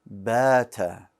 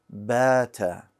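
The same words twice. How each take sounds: Both takes have the same delivery.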